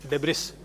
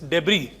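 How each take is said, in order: First: The final s sound is pronounced. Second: The final s sound is silent. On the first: The speaker calls it wrong. "and not debris" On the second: The speaker calls it right. "S is silent, so you pronounce it as debris"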